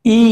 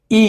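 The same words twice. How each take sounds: First: ই as a long, held ee. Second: ই as a short vowel; wrong short i. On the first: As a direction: draw out ই steadily as one long vowel. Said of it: "but দীর্ঘই সঠিক উচ্চারণ হবে". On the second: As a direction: say ই briefly, without holding it. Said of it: "যখন রস্বই বলছি আমরা ভুল". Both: Shown as a demonstration.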